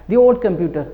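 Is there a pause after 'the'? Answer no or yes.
no. The words run together without any pause. The speaker calls it right. "no pause between the and vowel sound"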